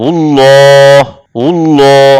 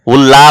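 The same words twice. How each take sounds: First: 'উল্লাহ' held on a rounded 'lloo'; thick, long 'ul-loo' for 'উল্লাহ'; heavy l. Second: 'উল্লাহ' as open 'ul-laa'; wrong thin l. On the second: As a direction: show the error, light 'laa' in 'উল্লাহ'. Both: Shown as a demonstration. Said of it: "উল্লাহ বলা যাবে না".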